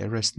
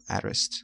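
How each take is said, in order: First: "arrest" starting with a short e, as in "bed"; correct pronunciation. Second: "arrest" starting with an open æ, as in "cat"; wrong pronunciation. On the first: Teacher giving students the right vowel, e-REST. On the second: Teacher showing students the mistake, æ-REST. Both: Shown as a demonstration.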